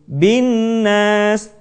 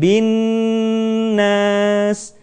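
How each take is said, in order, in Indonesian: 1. Bunyi sengau dibaca cepat tanpa ditahan. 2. Bunyi sengau ditahan selama beberapa ketukan. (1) "Kita tidak membacanya dengan tergesa-gesa menjadi bin nas" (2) "Jadi tahan"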